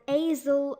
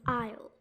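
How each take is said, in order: First: The s is pronounced as a sound. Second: The s is silent. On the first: The speaker calls it wrong. "you might have been might have been saying it as azel" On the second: The speaker calls it right. "we actually say it as isle"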